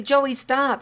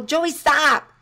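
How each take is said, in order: First: Habitual yell. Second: Sharp loud shout of a name; yelled warning. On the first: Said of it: "If you are always yelling". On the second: Parent yelling at child heading into the street, sharp shout. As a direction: yell to stop a child running into the street. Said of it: "because you yell". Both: Shown as a demonstration.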